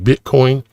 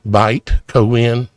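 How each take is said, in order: First: The first syllable sounds like 'bit'. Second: The first syllable sounds like 'bite', split apart.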